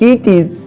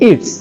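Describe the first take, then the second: First: It is said as two separate full words. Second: It is said joined together as one syllable.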